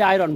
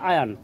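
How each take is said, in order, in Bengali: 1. শব্দটি r ধ্বনি দিয়ে উচ্চারিত হয়। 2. শব্দটি r ধ্বনি ছাড়া উচ্চারিত হয়। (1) "আমরা কই আয়রন, ভুল উচ্চারণ" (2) "এটা হবে আয়ন"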